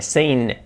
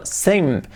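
First: "sane" with a held final N; drawn-out N on "sane". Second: "same" closing firmly on M; corrected M. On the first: Retold or imitated. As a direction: imitate the error "sane". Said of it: "la M como una N". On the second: Shown as a demonstration. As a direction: model "same" with lips shut at the end. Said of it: "no, same".

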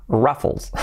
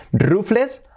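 First: Ruffles as "RAF-fols"; English "uh" vowel in ruffles; English pronunciation. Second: Said in the usual way. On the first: Shown as a demonstration. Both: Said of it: "¿Cómo cambia de decir rufles a ruffles?".

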